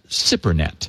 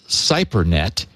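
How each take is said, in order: First: The first syllable sounds like 'sip'. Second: The first syllable does not sound like 'sip'. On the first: The speaker calls it right. "he says it's pronounced SIP" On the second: The speaker calls it wrong. "I was calling it Cypernet"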